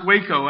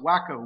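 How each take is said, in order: First: The first syllable sounds like 'way'. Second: The first syllable sounds like 'wack'. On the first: It is the real name of the town. The speaker calls it right. "but it's pronounced Waco, actually" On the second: It jokes that the man was crazy. The speaker calls it wrong. "You ought to pronounce it Waco with a guy like that running around"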